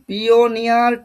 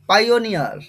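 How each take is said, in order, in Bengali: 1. প্রথম সিলেবলটি "pee" এর মতো করে বলা হয়। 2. প্রথম সিলেবলটি "pie" এর মতো করে বলা হয়। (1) "ঠিক এই উচ্চারণটা হবে না" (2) "প্রথমে পাই"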